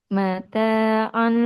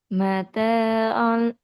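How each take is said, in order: Both takes have the same delivery.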